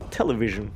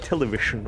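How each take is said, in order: First: The middle consonant is a soft zh sound. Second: The middle consonant is not a zh sound. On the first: The speaker calls it right. "No, that's, that's right" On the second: The speaker calls it wrong. "I used to go like television, or you know, I, I couldn't get the sh sound right"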